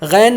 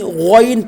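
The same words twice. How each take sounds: First: The letter is said thin, without heaviness. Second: The letter is said heavy, with a full sound. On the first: The speaker calls it wrong. "गैन नहीं पढ़ेंगे" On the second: The speaker calls it right. "बल्कि गैन पढ़ेंगे"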